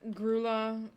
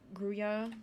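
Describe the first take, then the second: First: The middle consonant is an 'l' sound. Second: The middle consonant is a 'y' sound. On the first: The speaker calls it wrong. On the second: The speaker calls it right.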